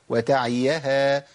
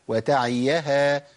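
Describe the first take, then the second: Both takes have the same delivery.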